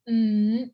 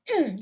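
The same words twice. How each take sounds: First: The pitch rises from middle to high. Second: The pitch drops sharply from high to low. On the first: "that's second" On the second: "that's the fourth tone. Drop down. It's like you're angry"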